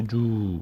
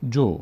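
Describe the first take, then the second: First: جو stretched into a long "juuu"; drawn-out vowel. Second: جو as a short, quick "jo"; short vowel. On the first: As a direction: drag out the vowel of جو as the mistake to avoid. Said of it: "زیادم کش ندید، نشه جو، نه". («جو» با مصوت کشیده) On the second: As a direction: say جو with one brief vowel, no stretching. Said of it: "فقط یک حرکت کوتاهه". («جو» با حرکت کوتاه) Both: Shown as a demonstration.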